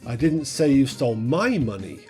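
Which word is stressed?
my. The word "my" is stressed. Someone else's money was stolen. "you stole someone else's"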